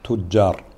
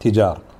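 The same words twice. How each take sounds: First: The j is doubled and the first vowel is u. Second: The j is short and the first vowel is i. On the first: "وتضم التاء وتشد الجيم" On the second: "تجار بدون شدة"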